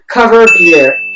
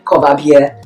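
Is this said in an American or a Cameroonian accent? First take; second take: American; Cameroonian. First: It is said in an American accent. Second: It is said in a Cameroonian accent. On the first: "American pronunciation" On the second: "Cameroonian pronunciation"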